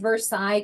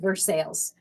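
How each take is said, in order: First: The name is given a French pronunciation. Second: The name is given an American pronunciation. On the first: "I say Versailles because it's French" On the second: "here in America they pronounce that different. So I think it's Versailles"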